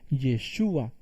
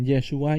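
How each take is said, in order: First: Yeshua stressed on the middle syllable, ye-SHU-a. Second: Yeshua stressed on the last syllable, ye-shu-A; stress on final A. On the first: Preacher shows congregation the Messiah's name, Yeshua stressed on the U. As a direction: put the accent of Yeshua on the U. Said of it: "con acento en la U". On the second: Preacher shows congregation the Hebrew word for salvation, Yeshua stressed on final A. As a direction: put the accent of Yeshua on its final A. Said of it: "lleva acento en la A". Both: Shown as a demonstration.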